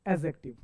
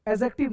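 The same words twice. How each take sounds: First: एडजेक्टिव said "ezektiv", no d; silent d. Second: एडजेक्टिव with a clear "d" before the j; mispronunciation. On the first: Teacher giving the form to use, एडजेक्टिव with silent d. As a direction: drop the d from एडजेक्टिव. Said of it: "इसे हम लोग बोलेंगे". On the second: Teacher rejecting the students' form, एडजेक्टिव with d sounded. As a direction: say एडजेक्टिव as "ed-jektiv". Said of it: "नहीं". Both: Shown as a demonstration.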